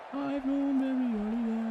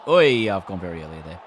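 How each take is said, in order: First: Silly high voice. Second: Said in the usual way. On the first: Pretend. Repeats own line in silly voice.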